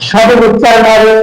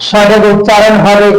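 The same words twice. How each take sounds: Both takes have the same delivery.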